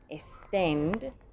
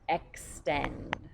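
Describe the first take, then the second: First: The x is said as a plain s. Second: The x is said with a ks sound. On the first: The speaker calls it wrong. "that's S sound" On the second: The speaker calls it right. "making an X"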